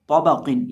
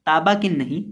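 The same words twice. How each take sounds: First: तौबा किन with full-mouthed तौ and क़; correct way. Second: ताबा किन with thin ता and light क, the mistake; wrong demo ताबा किन. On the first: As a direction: model the thick तौबा किन. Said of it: "तौ और कौफ को मोटा करके पढ़ेंगे". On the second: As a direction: say ताबा किन to show the error. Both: Shown as a demonstration.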